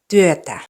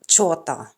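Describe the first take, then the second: First: The word begins with a plain t sound. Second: The word begins with a ch sound. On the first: The speaker calls it right. "so it's työtä" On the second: The speaker calls it wrong. "not chota"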